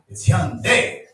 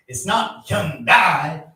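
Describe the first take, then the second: First: "Hyundai" pitched up, in the Korean manner; corrected pronunciation. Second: "Hyundai" drawn out the American way, as the wrong example; American mispronunciation. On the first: Passenger showing the right way, "Hyundai" said high as in Korean. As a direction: give "Hyundai" with its Korean music, higher. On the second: Passenger correcting how Americans say the car's name, "Hyundai" in slow American style. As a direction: stretch out "Hyundai" slowly as Americans say it. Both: Shown as a demonstration.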